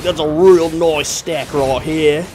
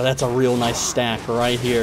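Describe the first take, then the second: First: It is said in a put-on Australian accent. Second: It is said in the speaker's usual accent.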